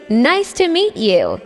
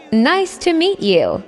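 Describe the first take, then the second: No difference in how they are said.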